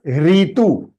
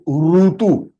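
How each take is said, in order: First: The first syllable is said as 'ri'. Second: The first syllable is said as 'ru'. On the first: This is the Hindi way of saying it. The speaker calls it wrong. "it is not ritu" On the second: This is the Sanskrit way of saying it. The speaker calls it right. "it is rutu"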